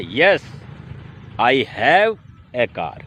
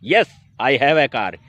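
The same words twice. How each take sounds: First: It is said at a slower pace. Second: It is said at a fast pace.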